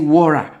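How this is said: It is said with an American accent. "Me who've been to America, we say water"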